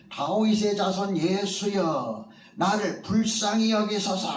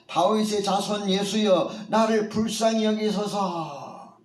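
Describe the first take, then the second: First: Pleading call, higher pitch; crying out for mercy. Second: Pleading cry, pitched higher than before; louder cry for mercy. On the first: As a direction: beg Jesus to notice you. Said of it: "크게 소리를 지릅니다". (맹인이 처음으로 예수를 부르는 외침) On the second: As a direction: call out to Jesus over the crowd, begging. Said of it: "더 크게 소리를 지릅니다". (맹인이 예수께 더 크게 외치는 간절한 부르짖음) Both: A narrator's reading.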